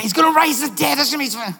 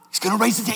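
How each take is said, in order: First: Higher and louder, eager certainty; excited guess. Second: Said in the usual way. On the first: Retold or imitated. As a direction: blurt it out like a sure bet. Angels guessing, excited retake.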